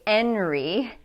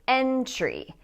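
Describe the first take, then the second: First: The T after the N is dropped. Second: The T after the N is pronounced. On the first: The speaker calls it wrong. "we cannot say enry" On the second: The speaker calls it right. "We have to say entry. So in this word, the T is pronounced as a T"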